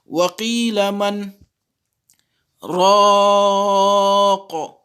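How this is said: A long pause breaks the phrase. The speaker calls it wrong. "Il ne faut pas que vous lisez les versets comme ça"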